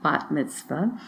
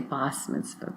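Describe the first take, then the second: First: The first word ends with a t sound. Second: The first word ends with an s sound. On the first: This is the Israeli pronunciation. "I'm using the Israeli pronunci- pronunciation" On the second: This is how some communities say it. "Sometimes in some circles they say bas mitzvah"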